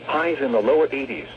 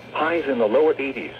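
No difference in how they are said.

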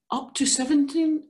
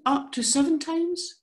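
First: Accidental misreading before self-correction; misread number. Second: Seven said carefully as the fix; careful self-correction after the slip; corrected reading. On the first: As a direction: slip of the tongue on seventeen. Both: Real, not acted.

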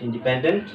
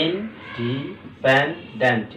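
First: Said in the usual way. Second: "ইনডিপেন্ডেন্ট" slowly split, each syllable drawn out. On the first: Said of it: "ইন্ডিপেন্ডেন্ট বলা হয় আর কি". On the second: Shown as a demonstration. Teacher going over the division for students, syllable by syllable. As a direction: divide "ইনডিপেন্ডেন্ট" into stretched parts. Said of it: "খেয়াল করো".

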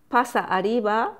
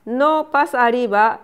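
First: Said in the usual way. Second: "no" hit louder in "no pasa arriba"; teacher contrasting ほ with ま, stressing "no". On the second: Shown as a demonstration. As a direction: lean on "no" to show the difference. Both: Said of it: "es diferente。".

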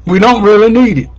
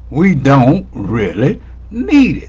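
First: High, loud and fast in one breath; quick, emphatic. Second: Word by word, "need" set apart; deliberate emphasis. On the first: Preacher tells congregation what is unnecessary, quick and emphatic. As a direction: fire it out quickly, pitched up. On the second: Preacher repeats the point to congregation, measured and deliberate. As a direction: space out "don't", "really" and "need". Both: Real, not acted.

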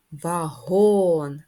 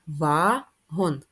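First: "вагон" with a long, loud "го"; stress on second syllable. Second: "Вагон" slowly in two separate syllables; split into syllables. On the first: Teacher showing children the stress, "вагон" drawn out on "го". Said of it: "Наголос на другий склад". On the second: Teacher counting syllables for children, "Вагон" slowly split. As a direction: draw out "Вагон" as ва, then гон. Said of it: "має два склади". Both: Shown as a demonstration.

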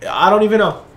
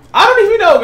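First: Said in the usual way. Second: Excited. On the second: Real, not acted. Repeats, amazed by the crash.

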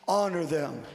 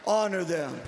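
The two takes are said the same way.

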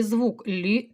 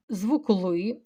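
First: "лі" with a soft, palatalised L. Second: "ли" with a hard, unpalatalised L. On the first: Teacher contrasting two different sounds, soft L in "лі". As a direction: say "лі" slowly, softening the L before "і". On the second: Teacher contrasting two different sounds, hard L in "ли". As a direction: say "ли" slowly with a firm hard L. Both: Shown as a demonstration. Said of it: "це різні звуки".

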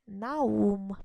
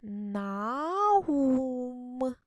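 First: Said in the usual way. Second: "Наум" stretched slowly, syllable by syllable, as "На-ум"; slow reading aloud. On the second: Shown as a demonstration. Teacher models reading "Наум" for first graders, slow and stretched. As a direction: sound out "Наум" slowly, like a child learning to read. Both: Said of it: "давайте прочитаємо".

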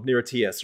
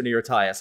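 First: "Tias" with an EE in the first syllable; pronunciation variant. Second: "Tias" with a long I, rhyming with bias; alternative pronunciation. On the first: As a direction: say "Tias" as TEE-ess. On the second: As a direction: say "Tias" as TIE-us. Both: Shown as a demonstration. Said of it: "however you wanna pronounce the acronym".

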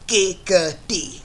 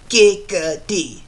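First: Giggity catchphrase. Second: Slow drawn-out Giggity; Giggity catchphrase. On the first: Repeating the catchphrase in the impression: slow Giggity. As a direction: stretch it again, slowly. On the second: Quagmire's catchphrase as the impression: slow Giggity. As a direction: stretch Giggity out slowly. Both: Retold or imitated. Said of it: "my Quagmire voice impression".

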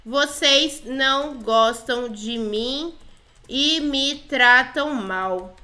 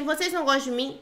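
First: "Vocês não gostam de mim" very slow, separated word by word; slow dictation. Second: Said in the usual way. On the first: Pretend. Player types "Vocês não gostam de mim" to the girls, slowly dictating. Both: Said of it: "Falei assim".

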